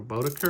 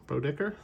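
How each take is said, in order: First: Bodicker as BOH-duh-ker, with a weak middle vowel; alternative pronunciation. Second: Bodicker as BROH-dick-er, questioning rise; unsure pronunciation. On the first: Card collector offering another guess at the name, alternative pronunciation. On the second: Card collector guessing at a player's name, unsure pronunciation. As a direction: try Bodicker with a short i in the middle, tentatively. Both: Real, not acted. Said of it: "I forget how you pronounce it".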